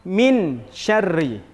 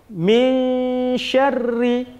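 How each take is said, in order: First: The n sound is pronounced fully and clearly. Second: The n sound is hidden, halfway between clear and merged. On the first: The speaker calls it wrong. "Tidak boleh dibaca min syarri. Izhar tadi artinya jelas" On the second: The speaker calls it right. "antara jelas dengan memasukkan"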